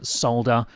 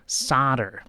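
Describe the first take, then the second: First: It is said in an Australian accent. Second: It is said in an American accent.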